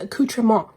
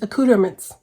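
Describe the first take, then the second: First: It is said with a French-sounding pronunciation. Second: It is said with an American English pronunciation. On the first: "which is like a French sounding pronunciation" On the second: "an American English pronunciation"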